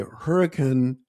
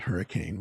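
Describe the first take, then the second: First: The name is said the local Utah way. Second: The name is said the Californian way. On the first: The speaker calls it right. "say hurricane" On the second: The speaker calls it wrong. "not hurricane"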